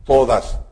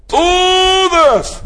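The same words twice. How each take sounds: First: Said in the usual way. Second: Todas cried out high and loud, stretched long; stress on Todas. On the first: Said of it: "la palabra que quiero enfatizar es". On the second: Shown as a demonstration. Preacher crying out Todas to the congregation. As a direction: lift Todas high and hold it. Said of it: "no sé si gritar o levantar la voz".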